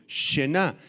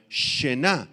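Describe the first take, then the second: First: Shená, sh inicial y acento fuerte en la á; palabra aramea aislada. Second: Shená con acento en la a; palabra aramea. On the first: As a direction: di shená despacio, marcando la á. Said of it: "S H al principio". (shená sola, con el acento en la a) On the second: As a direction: pronuncia shená, sh suave y acento en la á final. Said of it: "con acento en la A". (shená, acentuando la última a) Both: Shown as a demonstration.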